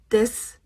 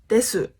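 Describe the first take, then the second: First: The final u sound is dropped. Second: The final u sound is pronounced. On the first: The speaker calls it right. "this U sound at the end is dropped" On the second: The speaker calls it wrong. "not desu"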